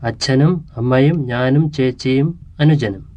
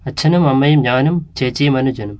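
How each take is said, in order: First: It is spoken slightly slower than normal. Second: It is spoken at normal conversational speed. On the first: "enacted at slightly slower than normal speed" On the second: "enacted at normal speed"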